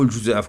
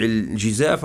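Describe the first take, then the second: First: "الجزاف" with a short u after j, juzaf; "الجزاف" opening on ju-; damma on the jim. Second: "الجزاف" with a short i after j, jizaf; "الجزاف" opening on ji-; kasra on the jim. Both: Shown as a demonstration. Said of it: "يذكر بالكسر أو الضم".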